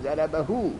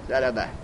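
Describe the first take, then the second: First: The word ends with a lengthened u vowel. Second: The word ends on h with no vowel. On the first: The word is joined to what follows. "در حال وصل به مفرد مذکر واو میزنن میگن ضربهو" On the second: The speaker stops after the word. "ضربهو وقفش کردین چه بگیم؟"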